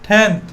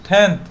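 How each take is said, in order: No difference in how they are said.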